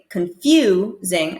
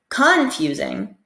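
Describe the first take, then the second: First: The stress falls on the usual syllable. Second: The stress falls on an unusual syllable. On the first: The speaker calls it right. "instead of saying confusing" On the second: The speaker calls it wrong. "they are expecting me to stress a different syllable"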